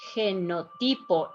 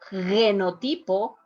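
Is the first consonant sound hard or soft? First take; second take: soft; hard. First: The first consonant is a soft breathy sound. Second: The first consonant is a hard sound. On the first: The speaker calls it right. "this one here is going to be softer too" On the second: The speaker calls it wrong. "is not genotipo"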